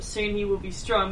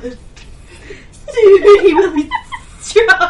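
First: It is read in a plain, ordinary voice. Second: It is said in a put-on character voice. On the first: The text is simply read. "instead of just reading it as" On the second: The character is imagined speaking the line. "the character in my head has to make those words come out"

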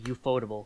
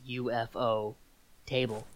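First: It is run together as one word. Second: It is said as 'UFO' then 'table'. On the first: The speaker calls it wrong. "please don't say ufotable" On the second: The speaker calls it right. "that's UFO table. UFO. It's about a table"

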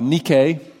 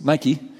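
First: The name is said the classical Greek way. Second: The name is said the Texan way.

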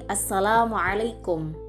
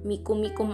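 First: The greeting is said in full with feeling. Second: The greeting is clipped to its last syllables. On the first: The speaker calls it right. "harus ada sense-nya ya, ada taste, ada rasa" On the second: The speaker calls it wrong. "nggak mikum-mikum aja"

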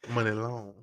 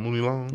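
First: The first vowel sounds like 'muh'. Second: The first vowel sounds like 'moo'. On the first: The speaker calls it right. "it's Money" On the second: The speaker calls it wrong. "You call him Mooney Long?"

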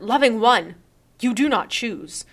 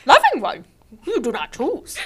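First: It is read in the speaker's ordinary voice. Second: It is said in an imitated character voice.

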